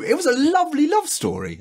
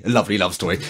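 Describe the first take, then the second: First: Very high, impassioned protest; worked-up squeaky insistence; indignant defence. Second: Said in the usual way. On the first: Real, not acted. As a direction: defend it in a high, upset pitch. Indignantly defends episode, then repeats wryly.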